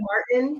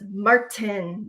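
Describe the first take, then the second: First: The T in the middle is softened. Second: The T in the middle is crisply pronounced. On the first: It is how most people say it. "normal people would say" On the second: It imitates a friend's cute way of saying it. "like she enunciates the T"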